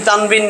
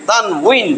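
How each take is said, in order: First: The middle consonant is sounded like b. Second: The middle consonant is sounded like w. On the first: The speaker calls it wrong. "কিন্তু সঠিক উচ্চারণ কি তানবিন না" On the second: The speaker calls it right. "ওয়াওজের উই, তানউইন"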